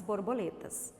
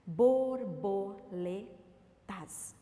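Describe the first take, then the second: First: Said in the usual way. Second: BORBOLETAS very slowly split as bor, bo, le, tas; syllable by syllable. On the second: Shown as a demonstration. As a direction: count out "Borboletas" in four beats with long pauses. ("Borboletas" bem devagar, sílaba por sílaba: bor, bo, le, tas) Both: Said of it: "Quatro sílabas".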